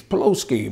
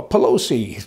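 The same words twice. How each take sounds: First: Pelosi botched as "puh-LOH-skee"; botched name. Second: Said in the usual way. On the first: Shown as a demonstration. Host fumbling a politician's name, saying Pelosi as "Peloski".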